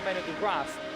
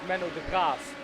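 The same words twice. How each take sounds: First: The name is pronounced with English sounds. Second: The name is pronounced with Dutch sounds. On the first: The speaker calls it wrong. "it's not Menno de Graaf" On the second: The speaker calls it right. "but it's Menno de Graaf"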